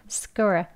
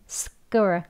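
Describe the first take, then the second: Both takes have the same delivery.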